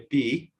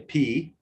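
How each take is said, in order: First: The P sound is soft and weak. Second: The P sound is strong and forceful. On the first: The speaker calls it wrong. "we will not say P" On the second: The speaker calls it right. "we're going to say P"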